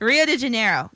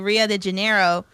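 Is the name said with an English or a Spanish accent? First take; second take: Spanish; English. First: It is said with a Spanish accent. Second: It is said with a plain English accent. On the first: The speaker calls it right. "I needed to say it in my Spanish accent" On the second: The speaker calls it wrong. "I should know this"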